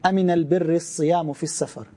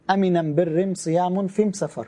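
First: The article is pronounced 'al' throughout. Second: The article is pronounced 'am' throughout. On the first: This is the common form. "They don't say al" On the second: This is the dialect of one tribe. "in their accent, they say, instead of al, they say am"

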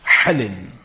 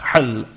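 First: The word ends with an added -in. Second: The word ends on a bare consonant. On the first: "or you can say as with a كسرة بالتنوين" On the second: "you can say with the سكون"

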